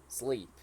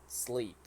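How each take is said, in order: Both takes have the same delivery.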